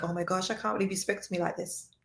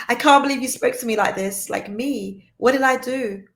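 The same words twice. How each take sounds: First: Soft, fast, hurt murmur under her breath; barely voiced, as if stunned; hushed disbelief. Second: Higher and louder, hurt and affronted; indignant disbelief. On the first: Woman recalls a partner's harsh words, murmuring in hushed disbelief. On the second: Retold or imitated. Woman replays a partner's harsh words, indignant and louder. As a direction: protest like you were wronged. Quoting her own hurt reaction.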